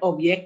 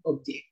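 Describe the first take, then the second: First: The middle consonant sounds like a y. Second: The middle consonant sounds like a j. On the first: The speaker calls it wrong. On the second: The speaker calls it right. "melainkan objek"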